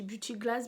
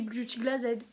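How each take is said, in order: First: The final D sound is left off. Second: The word ends with its written final sound. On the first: This follows the English way of saying it. "ma soeur m'a dit qu'on dit Beauty Glass parce que le, le D on ne le prononce pas en anglais" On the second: This reads the name as it is written. "Moi il y a écrit Beauty Glass Z, je lis Beauty Glass Z"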